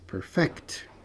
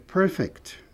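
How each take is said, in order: First: The stress is on the second syllable. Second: The stress is on the first syllable. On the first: It is the verb, to perfect. "Aperfeiçoar é perfect" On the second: It is the adjective, perfect. "Um adjetivo perfeito é perfect"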